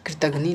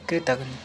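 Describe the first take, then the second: First: कृतघ्नि ending in ni; wrong form. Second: कृतघ्नि said as kritaghn, no i; corrected form. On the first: Teacher shows the error, कृतघ्नि ending in i. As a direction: sound the final i in कृतघ्नि. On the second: Teacher corrects students, कृतघ्नि without final i. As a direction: end कृतघ्नि on the n. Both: Shown as a demonstration. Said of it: "नहीं".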